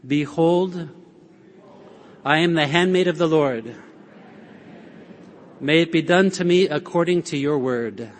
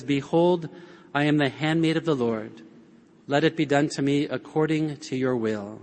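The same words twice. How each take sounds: First: Fuller, proclaimed prayer for all to repeat; leading a shared prayer. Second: Soft, humble Mary, gently bowing in; hushed and lowly, like a servant's answer; humble quiet prayer. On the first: Shown as a demonstration. Preacher leading the congregation to repeat Mary's words, proclaimed. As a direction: lead the room in saying it, steady and declared. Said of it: "Why don't you say that with me? Repeat after me". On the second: Retold or imitated. Preacher voicing Mary's humble answer to the angel, softly. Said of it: "She kinda leans in humbly and says".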